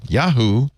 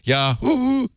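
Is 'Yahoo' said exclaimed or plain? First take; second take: plain; exclaimed. First: The word is said plainly, without exclamation. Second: The word is said loudly, as an exclamation. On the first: The speaker calls it wrong. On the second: The speaker calls it right.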